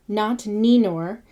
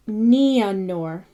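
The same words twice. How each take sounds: First: Ninor with one long E, NEE-nor; wrong Ninor. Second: Nianor said nee-a-nor; Nianor, both vowels. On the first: Teacher showing the wrong Ninor. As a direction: Ninor without the second vowel. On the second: Teacher sounding out Nianor with both vowels. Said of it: "it's Ia". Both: Shown as a demonstration.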